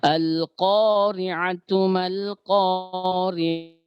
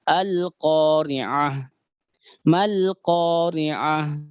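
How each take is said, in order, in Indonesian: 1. Tidak berhenti; kata pertama berakhir dengan -tu, langsung disambung. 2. Berhenti setelah kata pertama, berakhir dengan h. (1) "ketika kita sambung ini" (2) "ini seperti ini kalau kita berhenti"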